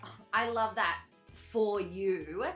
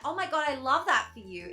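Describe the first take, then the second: First: It is said in a condescending tone. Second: It is said in a sincere, excited tone.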